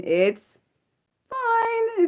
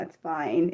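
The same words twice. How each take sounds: First: Strained fine. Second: Said in the usual way. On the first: Real, not acted. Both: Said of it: "Breathe, [name]".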